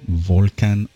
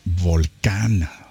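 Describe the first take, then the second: First: The word is said with English pronunciation. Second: The word is said with Spanish pronunciation.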